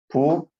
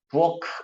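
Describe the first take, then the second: First: The word ends with an unreleased plain k sound. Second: The word ends with a released aspirated kh sound. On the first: The speaker calls it right. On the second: The speaker calls it wrong.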